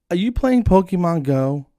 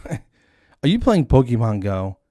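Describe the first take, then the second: First: High, loud imitation of her question; imitated eager question. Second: Slow, loud repeat of her question; drawn-out mimicked question. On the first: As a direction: pitch it up like the lady asking. Voices the young lady's question. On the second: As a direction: stretch it out in mock disbelief.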